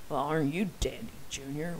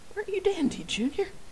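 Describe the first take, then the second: First: It is said with a sarcastic tone. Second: It is said with a sincere tone.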